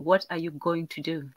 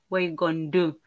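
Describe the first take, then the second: First: Every syllable is pronounced in full. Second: The syllables are shortened and run together. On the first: "We have to say every single syllable" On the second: "they always shortcut everything"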